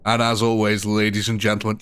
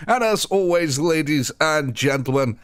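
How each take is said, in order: First: Said in the usual way. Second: High, drawn-out announcer's sign-off; big sign-off take. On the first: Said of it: "just for something different". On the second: Shown as a demonstration. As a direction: stretch it out like a showman. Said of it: "we're gonna have a second one".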